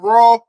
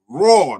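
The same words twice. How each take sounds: First: The vowel is short and plain. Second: The vowel is stretched out long. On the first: The speaker calls it wrong. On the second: The speaker calls it right. "Put put two more A's in it"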